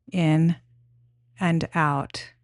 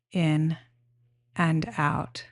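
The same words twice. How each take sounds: The two takes are said the same way.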